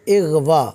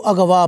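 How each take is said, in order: First: The word begins with the vowel i. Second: The word begins with the vowel a. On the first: The speaker calls it right. "ये लफ्ज़ है इग़वा" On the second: The speaker calls it wrong. "इसको अगवा पढ़ा जाता है"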